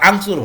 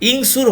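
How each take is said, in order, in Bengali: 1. শব্দটি a স্বরবর্ণ দিয়ে শুরু হয়। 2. শব্দটি i স্বরবর্ণ দিয়ে শুরু হয়। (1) "আংসুর হলো না" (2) "ইংসুর হলো না"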